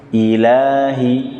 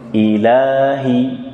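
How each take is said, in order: First: The long vowel is held for two counts. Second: The long vowel is held for two counts.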